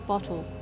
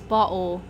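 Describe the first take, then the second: First: The T sounds are clearly pronounced, posh British. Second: The T sounds are dropped, Cockney style. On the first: "fancier British accent, you do say the two T's" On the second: "bottle in Cockney is bottle"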